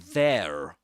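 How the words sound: It ends with an audible R sound. "he doesn't say there, right? Like in American English"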